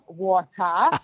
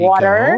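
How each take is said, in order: First: It is said with a British accent. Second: It is said with an American accent.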